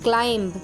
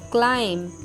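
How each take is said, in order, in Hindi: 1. अंतिम b बोला जाता है। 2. अंतिम b नहीं बोला जाता।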